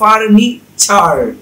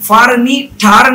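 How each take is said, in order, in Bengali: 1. মাঝের ব্যঞ্জনটি একটি ch ধ্বনি। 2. মাঝের ব্যঞ্জনটি একটি শক্ত t ধ্বনি। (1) "হবে" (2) "না হয়ে"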